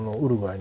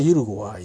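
First: The name begins with a plain oo sound. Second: The name begins with a yoo sound. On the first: This is the Spanish reading of the name. "スペイン語でいいのかな。それはだからウルグアイなんだけど" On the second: This is the English reading of the name. "英語の場合はユルゴアイになるし"

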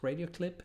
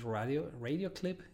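First: The name is pronounced the English way. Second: The name is pronounced the Spanish way.

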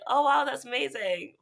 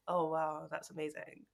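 First: It is said with excited, lively intonation. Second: It is said flat, in a monotone.

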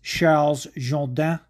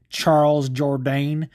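First: The name is said with French-style sounds. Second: The name is said with English-style sounds. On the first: The speaker calls it right. "but it's Charles Jourdain" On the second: The speaker calls it wrong. "you probably pronounce it Charles Jourdain"

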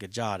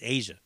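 First: The middle consonant is a hard 'j' sound. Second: The middle consonant is a soft 'zh' sound. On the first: It is read the way the spelling looks. The speaker calls it wrong. "That looks like Aja to me" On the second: It is said the way the band says it. The speaker calls it right. "I think they pronounce it Asia"

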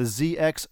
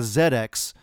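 First: The letter Z is pronounced 'zee'. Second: The letter Z is pronounced 'zed'. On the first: This is the American way of saying it. The speaker calls it wrong. "our UK listeners are hating this pronunciation" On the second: This is the British way of saying it. The speaker calls it right. "maybe I should be saying the ZX system"

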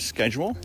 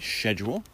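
First: It is said in an American accent. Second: It is said in a British accent.

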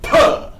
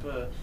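First: The sound is loud, with a strong burst of breath. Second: The sound is soft, with little breath. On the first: The speaker calls it right. "sounds like puh! You spit everywhere" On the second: The speaker calls it wrong. "rather than sounding like puh"

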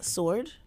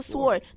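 First: The word is said without a W sound. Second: The word is said with a W sound. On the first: "They like" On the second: "I just don't understand why you wouldn't say the W in sword"

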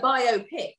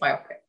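First: It is said as bio plus pic. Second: It is not said as bio plus pic. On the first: "Because it's a pic about your bio" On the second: "but I think it's biopic"

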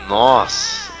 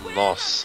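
First: It sounds admiring, said with a sly smile. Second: It sounds unimpressed, as after a bad joke.

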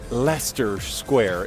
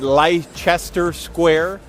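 First: It is pronounced in a British way. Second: It is pronounced in an American way. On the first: The speaker calls it right. "it's actually Leicester Square if you're a Brit" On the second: The speaker calls it wrong. "in the United States, we would say, we'd probably pronounce it"

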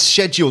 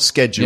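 First: The word begins with an 'sh' sound. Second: The word begins with an 'sk' sound. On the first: This is the usual British way. The speaker calls it right. "it's schedule" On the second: This is the way that follows the spelling rule. The speaker calls it wrong. "not schedule"

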